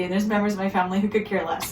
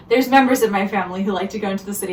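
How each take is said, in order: First: Quick unvoiced whispered aside; conspiratorial whisper. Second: Said in the usual way. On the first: Real, not acted. Teasing the relatives who don't care, whispered aside. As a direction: drop to a fast sneaky whisper. Aside about family members.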